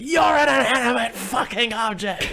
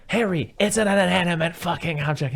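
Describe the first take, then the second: First: Much higher, slow, drawn-out retort; mock furious yell. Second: Raised, high-pitched imitation of scolding; mock exasperated scolding. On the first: Husband yells back at wife, mock furious retort. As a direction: yell it back, stretching every word. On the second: Wife to husband slamming phone, mock exasperated scolding.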